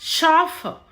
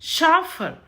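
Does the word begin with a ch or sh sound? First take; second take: sh; sh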